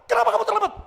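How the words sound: The question is asked in a harsh, sharp tone. The reader takes the sender as being harsh. "Wih, nemen orang ini"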